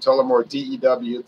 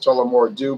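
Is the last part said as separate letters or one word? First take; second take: letters; one word. First: The last part is spelled out as letters. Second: The last part is said as one word. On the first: The letters are someone's initials. The speaker calls it right. "but it's actually Tullamore DEW, somebody's initials" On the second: This is the common everyday name. The speaker calls it wrong. "which everybody calls"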